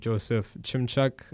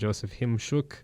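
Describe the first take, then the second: First: The surname is pronounced the English way. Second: The surname is pronounced the Ukrainian way.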